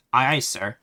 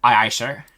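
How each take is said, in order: First: A light stiff robotic salute. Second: Louder, mock robot repeat. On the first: Pretend. The player answering the game as a robot, lightly mechanical. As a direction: answer like an obedient machine, half in jest. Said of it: "I did a robot voice there". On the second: The player quoting his own robot answer, louder mock robot. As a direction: quote the robot line back, laughing at it.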